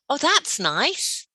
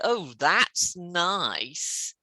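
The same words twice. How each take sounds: First: It is said warmly and sincerely. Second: It is said in a sarcastic tone. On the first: The thing is really good. "I think it's good" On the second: The thing was not good at all. "I mean, it wasn't nice at all"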